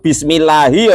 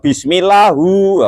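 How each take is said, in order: First: The word ends with an 'i' vowel. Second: The word ends with a 'u' vowel. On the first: The speaker calls it right. "Harusnya hi" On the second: The speaker calls it wrong. "malah dibaca hu"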